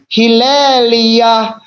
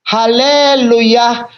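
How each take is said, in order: First: The first vowels are 'i' sounds: Hilelia. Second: The first vowels are 'a' sounds: Haleluya. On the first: This is the original form of the word. The speaker calls it right. "padahal sebetulnya Hilelia" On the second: This is how many people commonly say it. The speaker calls it wrong. "disebut sebagai Haleluya"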